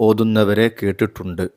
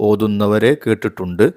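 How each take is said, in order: No difference in how they are said.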